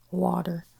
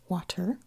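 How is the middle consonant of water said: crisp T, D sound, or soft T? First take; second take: D sound; crisp T. First: The middle consonant sounds like a D. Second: The middle T is crisp and fully released. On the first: "like a D" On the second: "like really get that T in there"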